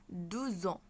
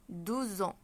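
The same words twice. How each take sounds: No difference in how they are said.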